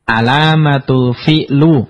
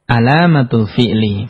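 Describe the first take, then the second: First: The last word ends in a u vowel. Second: The last word ends in an i vowel. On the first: The speaker calls it wrong. "nggak boleh" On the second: The speaker calls it right. "Harus dibaca"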